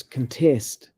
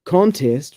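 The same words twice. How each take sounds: First: CONTEST stressed on TEST, as a verb; weak CON, strong TEST in CONTEST; second-syllable stress. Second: CONTEST stressed on CON, as a noun; first-syllable stress. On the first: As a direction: say CONTEST slowly as cun-TEST. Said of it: "stress the second syllable". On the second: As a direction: say CONTEST slowly as CON-test. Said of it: "stress is on the first syllable". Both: Shown as a demonstration.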